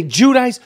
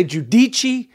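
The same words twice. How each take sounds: First: Giudice said as "joo-DICE", rhymes with dice; right pronunciation. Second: Giudice said as "joo-dee-chee", Italian style; wrong pronunciation. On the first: Host passing on how Teresa says her own name: Giudice as joo-DICE. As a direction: say Giudice the way she told him, joo-DICE. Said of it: "Some people say Giudice". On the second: Host mocking the pronunciation some people use: Giudice as joo-dee-chee. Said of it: "That doesn't sound right". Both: Shown as a demonstration.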